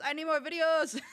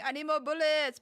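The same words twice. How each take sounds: First: Louder, higher meme parody; mock urgent demand; meme quote voice. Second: Quoting the meme guy, raised; mock urgent demand; meme quote voice. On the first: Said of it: "instead of bullets, it's". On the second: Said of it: "the meme of the guy that is saying".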